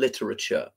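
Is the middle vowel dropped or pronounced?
pronounced. The middle vowel is pronounced as a full syllable. "Americans would pronounce that E in the middle"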